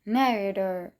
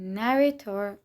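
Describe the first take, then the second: First: The middle t sounds like a soft d. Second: The middle t is a clear t sound. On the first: "تی به دی تبدیل میشه" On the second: "به جای گفتن narrator"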